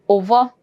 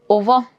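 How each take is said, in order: The two takes are said the same way.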